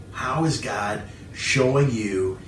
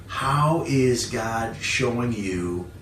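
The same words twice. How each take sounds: The two takes are said the same way.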